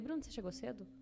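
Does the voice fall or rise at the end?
fall. It ends with a flat, falling statement tune.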